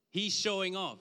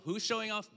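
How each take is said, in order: First: "He's" hit loud, the rest falls away; stress on he's. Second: "showing" lifted high in a rhetorical question; stress on showing. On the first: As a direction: punch "He's" as an accusing claim. Preacher voices a critic. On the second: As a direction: lean on "showing" as you turn the question back. Preacher answers his own charge. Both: Acted.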